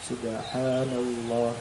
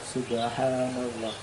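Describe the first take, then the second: No difference in how they are said.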